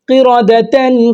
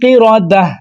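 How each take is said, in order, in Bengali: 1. শব্দটি 'tan' ধ্বনি দিয়ে শেষ হয়। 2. শব্দটি 'h' ধ্বনি দিয়ে শেষ হয়।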